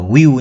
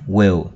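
First: The vowel is drawn out long. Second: The vowel is short and clipped. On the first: The speaker calls it wrong. "Đừng có đọc là will nhé các bạn nhé" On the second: The speaker calls it right. "Đây là âm ngắn nhé"

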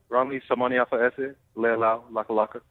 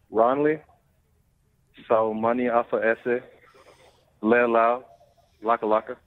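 First: The name is said at normal speed. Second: The name is said slowly and carefully.

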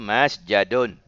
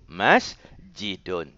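First: The middle vowel is an 'a' sound. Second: The middle vowel is an 'i' sound. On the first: It follows the general pattern. The speaker calls it wrong. "kalau ikut kaedah umumnya ialah masjadun" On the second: It is an exception taken from long usage. The speaker calls it right. "Maka yang betulnya sajada yasjudu masjidun"

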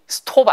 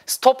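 First: The vowel is a rounded 'oh' sound. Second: The vowel is an open 'ah' sound. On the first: The speaker calls it wrong. "이거 발음이 stop 아니에요" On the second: The speaker calls it right. "stop이에요. stop 하실 거면 당연히 복스, 그 다음에 팝송, 포퓰라 이렇게"

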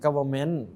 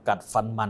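First: The word has its English pronunciation. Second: The word is said with Thai sounds.

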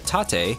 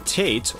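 First: The word is said with a Japanese pronunciation. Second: The word is said with an English pronunciation. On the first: The speaker calls it right. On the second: The speaker calls it wrong.

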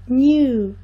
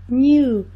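First: A y glide comes before the vowel. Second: The same.

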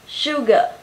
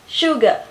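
The two takes are said the same way.

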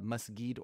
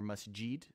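First: The word is said with a hard g sound. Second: The word is said with a j sound. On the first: "I've heard different with the G or the J" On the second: "I've heard different with the G or the J"

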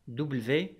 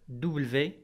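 Both takes have the same delivery.

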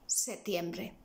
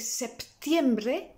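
First: No p sound is pronounced before the t. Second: A p sound is pronounced before the t. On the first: "or you may decide not to use it" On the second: "you can use the P"

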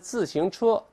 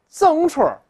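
First: All three syllables are fully pronounced. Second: The middle syllable is reduced to a nasal sound. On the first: "他不叫自行车" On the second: "又哏又辣的这么说"

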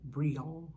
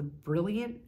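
First: The name is pronounced the French way. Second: The name is pronounced the English way. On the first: "Maybe in French it's like" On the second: "I assume that's how you pronounce it"

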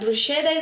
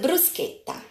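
First: The sch is not said as k. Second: The sch is said as k. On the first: The speaker calls it wrong. "bruschetta is not what I prepared" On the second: The speaker calls it right. "the pronunciation is K"

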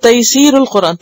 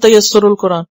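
First: The vowel after the 's' is long. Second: The vowel after the 's' is short. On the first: The speaker calls it right. "वो है तैसीरुल Quran" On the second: The speaker calls it wrong. "अक्सर लोगों को मैंने ये गलत तरीके में प्रोनाउंस करते सुना है"

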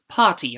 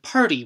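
First: The word is said with no 'r' sound. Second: The word is said with an 'r' sound. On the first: This is the British pronunciation. "potty instead of party" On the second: This is the American pronunciation. "Americans say cart and party with an r"

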